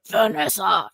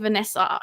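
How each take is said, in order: First: It is said in a Wilson Fisk voice. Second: It is said in a plain voice.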